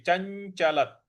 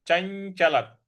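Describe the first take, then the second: No difference in how they are said.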